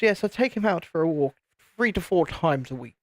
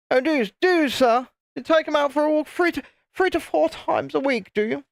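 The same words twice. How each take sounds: First: Said in the usual way. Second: Posh English toff voice pitched much higher, hammed up; mocking posh English accent, squeaky and high. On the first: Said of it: "Had that kind of accent". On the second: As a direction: send up a posh English toff with exaggerated disbelief. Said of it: "Had that kind of accent; You bloody toff".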